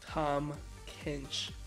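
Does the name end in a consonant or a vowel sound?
consonant. The name ends on the consonant sound.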